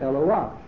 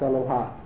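First: There is no h before the final vowel. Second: An h sound comes before the final vowel. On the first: The speaker calls it right. "the correct pronunciation is Eloa" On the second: The speaker calls it wrong. "and not Eloha"

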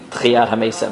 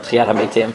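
First: It mixes Ashkenazi and Sephardi pronunciation. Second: It is said in consistent Sephardi pronunciation. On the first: The speaker calls it wrong. "not a mix" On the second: The speaker calls it right.

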